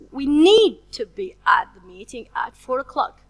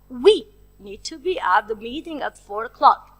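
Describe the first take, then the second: First: The word 'need' carries the main stress. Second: The word 'we' carries the main stress. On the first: Being there is urgent and necessary. "So we stress the word need" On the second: It is the two of us who must attend. "So I stress the word we"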